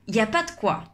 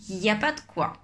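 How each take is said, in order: First: Il, ne and the e are dropped. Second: The same.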